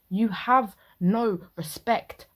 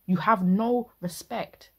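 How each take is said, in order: First: Slow, loud "You have no respect," hitting "have"; stress on have. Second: "You have no respect." repeated slow and loud, "have" pressed; stress on have. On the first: Reactor scolding the husband, slow and stressed. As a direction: drag it out, lean hard on "have". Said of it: "scolding the husband". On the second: Reactor repeating the scolding, slow and pressed. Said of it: "repeated scolding". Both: Real, not acted.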